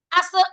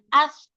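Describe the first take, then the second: First: The consonant is stopped, with a short vowel bounce. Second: The consonant flows on without any bounce. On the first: The speaker calls it wrong. "kalau dia syiddah, nanti dia gini" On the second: The speaker calls it right. "Kalau mengalir, ketika disukun mengalir gini"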